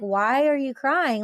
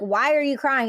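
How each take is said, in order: First: It sounds gentle and caring. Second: It sounds harsh and accusing.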